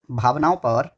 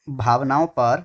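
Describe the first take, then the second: No difference in how they are said.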